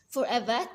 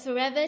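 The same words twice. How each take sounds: First: The final R is dropped, Australian style. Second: The final R is clearly pronounced.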